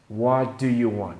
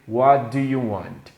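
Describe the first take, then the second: The two takes are said the same way.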